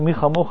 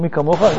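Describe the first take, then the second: First: The second word begins with a soft kh sound. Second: The second word begins with a hard k sound. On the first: The speaker calls it wrong. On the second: The speaker calls it right.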